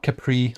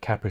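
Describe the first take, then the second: First: It is pronounced like the car's name. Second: It is pronounced like the drink's name. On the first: The speaker calls it wrong. "Not Capri like the car" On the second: The speaker calls it right. "but Capri like Capri Sun"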